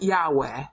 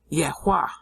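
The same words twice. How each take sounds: First: The first syllable has an open 'yah' sound. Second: The first syllable has a short 'yeh' sound. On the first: The speaker calls it wrong. "Not Yahweh" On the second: The speaker calls it right. "so it's a yeh sound"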